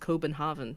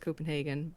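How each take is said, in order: First: It is said with a Danish pronunciation. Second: It is said with an English pronunciation. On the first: "the actual pronunciation is Copenhagen" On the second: "the anglicized version is Copenhagen"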